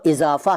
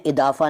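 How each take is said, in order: First: Said in the usual way. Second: इजाफा said "idaafa". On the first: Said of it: "इजाफा नहीं कहते हैं". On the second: Shown as a demonstration. Teacher showing the rejected form, इजाफा with d for z. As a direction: put a d for the z in इजाफा. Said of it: "नहीं कहते हैं".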